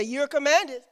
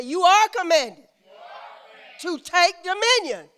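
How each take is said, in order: First: Said in the usual way. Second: YOU ARE COMMANDED high, loud and firm; like you mean it. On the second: Shown as a demonstration. Preacher coaches congregation to repeat "You are commanded" like they mean it. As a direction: hit "You are commanded" with raised, emphatic conviction. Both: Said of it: "you don't say it like you mean it".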